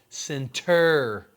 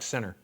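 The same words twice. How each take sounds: First: The final 'ter' syllable is clearly pronounced. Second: The 'ter' is dropped, sounding like 'sinner'. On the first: "I'm like center, because if I don't go ter" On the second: "it sounds like center... sinners and saints"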